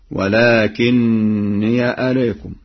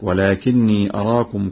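First: "ولكني" drawn out slowly as walakinniya; slow recitation, "ولكني" ending in open -ya; fatha on ya. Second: Said in the usual way. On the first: Shown as a demonstration. Teacher demonstrates the third place, slow "ولكني" ending -niya. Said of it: "بفتح ياء الإضافة".

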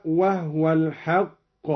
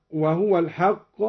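First: وهو as "wahwa", no vowel after h; vowelless ha. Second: Said in the usual way. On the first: Shown as a demonstration. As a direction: slowly recite وهو with the ha silenced of its vowel. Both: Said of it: "أسكن الهاء".

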